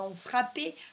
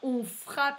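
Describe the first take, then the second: First: The verb ends with an added é sound. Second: The verb ends without a final vowel sound. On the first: The speaker calls it wrong. "pas on frappait" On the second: The speaker calls it right. "on frappe et pas"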